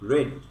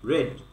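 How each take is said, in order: First: The vowel is a short e sound. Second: The vowel is a short e sound.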